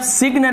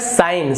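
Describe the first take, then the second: First: The word is said with a g sound. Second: The word is said without a g sound. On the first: The speaker calls it wrong. "तो इसे आप सिग्न नहीं पढ़ेंगे" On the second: The speaker calls it right. "तो ये होता है साइन"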